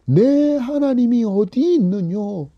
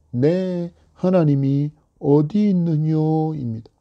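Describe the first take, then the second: First: Higher, slow jeer leaning on 어디; mocking taunt. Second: Said in the usual way. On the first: Enemies mocking the psalmist, sneering question. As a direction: stretch 어디 with a scornful fall. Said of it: "원수들이 조롱하면서". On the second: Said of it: "조롱하는 말이".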